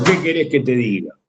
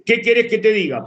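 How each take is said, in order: First: Low, falling answer meaning things are bad; sigh-like resignation, pitched down; resigned exclamation. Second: "¿Qué querés que te diga?" pitched higher as a question; question intonation. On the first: Teacher answering a how-are-you with signs of exclamation, resigned. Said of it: "con ese tono significa, "Me va mal". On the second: Teacher showing the same phrase as a question, "querés" lifted in a higher questioning tone. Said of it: "pero es una pregunta". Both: Shown as a demonstration.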